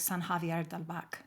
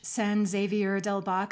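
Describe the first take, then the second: First: The name is said with Spanish pronunciation. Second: The name is said with English pronunciation. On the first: "I suppose it would be like" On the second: "the Spanglish ... that's a very English pronunciation"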